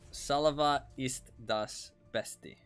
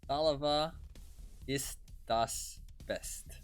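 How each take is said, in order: First: The last word ends with an extra vowel sound. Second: The last word ends on a consonant sound. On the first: The speaker calls it right. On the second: The speaker calls it wrong.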